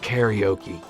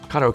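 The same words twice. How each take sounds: First: The word is said with an English pronunciation. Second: The word is said with a Japanese pronunciation. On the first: "that's how we say it in English" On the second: "is how you say it in Japanese"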